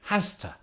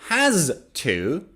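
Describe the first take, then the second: First: The words blend quickly into one reduced word. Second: Both words are said fully and separately. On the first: "native speakers say has to" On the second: "Instead of has to"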